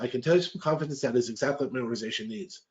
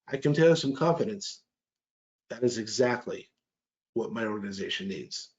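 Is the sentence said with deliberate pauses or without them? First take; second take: without; with. First: The sentence flows without deliberate pauses. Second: The sentence contains deliberate tactical pauses. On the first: The speaker calls it wrong. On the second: The speaker calls it right.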